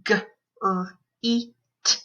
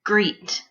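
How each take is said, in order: First: G... r... ee... t, separated; sounded out phonemes. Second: Said in the usual way. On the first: Shown as a demonstration. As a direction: GREET split into four sounds. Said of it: "say the sounds in the word". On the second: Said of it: "put those sounds into a word".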